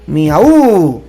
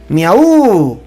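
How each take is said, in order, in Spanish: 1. La tónica cae en la u. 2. La tónica cae en la u.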